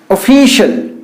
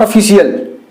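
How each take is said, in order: First: "official" said as o-fi-shal, with sh; correct pronunciation. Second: "official" said as o-fi-si-al, with s and an extra syllable; the wrong "official" split into si-al; wrong pronunciation. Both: Shown as a demonstration. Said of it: "not official".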